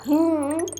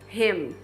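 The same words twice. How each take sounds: First: The final m is a nasal vowel, lips open. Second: The final m is made with the lips closed. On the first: The speaker calls it wrong. "as pessoas vão achar que você está falando uma outra coisa" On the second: The speaker calls it right. "você tem que encostar os seus lábios, fechar a sua boca"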